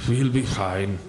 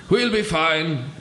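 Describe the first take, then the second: First: Low muttered redo; low muttered correction of the line. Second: Raised, bright read of the line; high slow read of the line; first take, too high. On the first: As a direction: mutter it low under the breath. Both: Shown as a demonstration. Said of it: "Actually, that should have been like".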